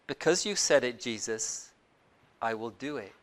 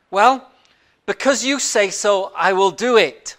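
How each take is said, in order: First: Soft, low, measured agreement; very careful. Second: Polite reply that hints at unspoken doubts; louder, agree politely while thinking otherwise; polite but doubtful. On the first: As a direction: agree cautiously, dropping low and quiet. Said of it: "very carefully, he says". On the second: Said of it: "Simon is very polite". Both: Acted.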